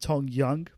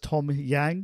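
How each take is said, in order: First: The surname has the vowel of 'hung'. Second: The surname has the vowel of 'hang'. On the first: The speaker calls it right. "Tom Young, but spelt with an A" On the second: The speaker calls it wrong. "which is obviously the wrong way to say it"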